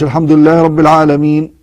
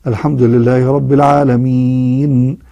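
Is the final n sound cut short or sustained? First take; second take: cut short; sustained. First: The final n sound is cut off abruptly. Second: The final n sound is held and flows. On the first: The speaker calls it wrong. "ما قلش ... كذا جعلته شديد" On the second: The speaker calls it right. "بينية النون"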